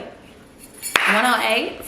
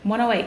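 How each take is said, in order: First: Slow, drawn-out sing-song; drawn-out repeat. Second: Said in the usual way. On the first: Real, not acted. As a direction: stretch the words slowly.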